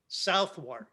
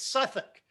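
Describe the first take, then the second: First: It is said in full, as south and wark. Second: It is shortened to two quick syllables, like Suthuk. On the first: The speaker calls it wrong. "what Americans would call Southwark" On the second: The speaker calls it right. "pronounce it the way the English do"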